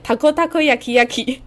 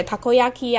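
First: "tako takoyaki yaki" read with the word nested inside itself; amused reading of "tako takoyaki yaki"; doubled sign wording. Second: Said in the usual way. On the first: Shown as a demonstration. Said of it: "他就上面写". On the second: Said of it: "章鱼烧可能就会写".

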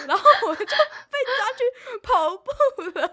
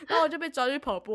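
First: Slow, high, laughing through the words. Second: Said in the usual way. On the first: Real, not acted. Telling her friend, laughing high and loud. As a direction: laugh out the line. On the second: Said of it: "same words retold".

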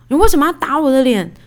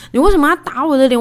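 First: Mock-angry demand, a bit louder; indignant retort. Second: Faster, louder, higher indignant repeat; heated demand. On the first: Wife confronting husband who slapped her, indignant. Retold fight after husband's slap. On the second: Retold or imitated. Wife repeating her demand to husband, faster and angrier. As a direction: fire the question back, quicker and hotter.

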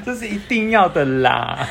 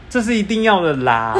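First: Slow, drawn-out Taiwanese Mandarin; Taiwanese slang drawl. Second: Wimpy, sheepish delivery with a laugh; timid voice. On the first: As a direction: stretch 的啦 lazily. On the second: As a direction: say it like a chicken backing down. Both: Retold or imitated. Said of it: "怎么听起来那么怂啊".

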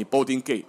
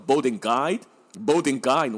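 First: Asking for the gate, said "gayt"; American "gate" with ay vowel. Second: Imitated local saying gate as "guide"; boarding gate with a broad eye vowel; Kiwi-Aussie "gate" as guide. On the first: Retold or imitated. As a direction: gate in learned American pronunciation. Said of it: "一般的美式发音叫做boarding gate". (美式发音问gate) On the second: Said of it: "他们念成boarding guide". (模仿纽澳口音，gate念成guide)

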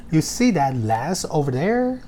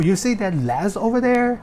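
First: Words linked; slow linked final take. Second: Raised pitch, words linked together; linked model sentence. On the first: Teacher giving the final model of linking. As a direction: say it linked and slowly. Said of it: "就是要这样子念". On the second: Teacher showing linking in an example question, pitched high. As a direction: glide the words together, pointing. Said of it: "要连音哦". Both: Shown as a demonstration.

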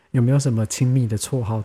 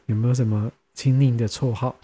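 First: 亲密 said as qin-mi, the fixed reading, falling at the end; corrected 亲密. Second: 亲昵 said as qin-ni with a rise, before self-correcting; first try at 亲昵. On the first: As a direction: restate it with 亲密 as qin mi. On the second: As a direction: read 亲昵 as qin ni, rising at the end. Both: Shown as a demonstration.

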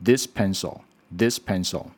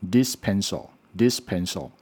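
First: "this" with tongue tip between the teeth; careful dental th at the start of "this"; correct TH. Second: "this" with the tongue kept behind the teeth, like "dis"; "this pencil" with a d-like sound replacing th; wrong TH. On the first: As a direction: demonstrate "this pencil" with a true voiced th. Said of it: "正确的声音应该是". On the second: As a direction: demonstrate the learner's mistake, no dental th in "this". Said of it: "错误的声音会变成". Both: Shown as a demonstration.

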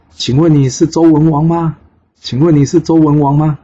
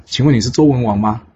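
First: High, loud call from the sky; loud shout. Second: Said in the usual way. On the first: Acted. Son calling to King Wen from the air, shouting. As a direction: shout the question down to someone far away. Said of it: "他在空中大喊说".

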